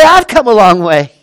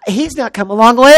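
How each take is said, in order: First: "I've" hit loud, emphatic correction; stress on I'VE. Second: "he's" set up as the contrast, less forceful; stress on HE'S. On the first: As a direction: punch "I've" and keep the whole line loud. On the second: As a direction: lightly lean on "he's", then correct it. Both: Real, not acted. Corrects who has come far.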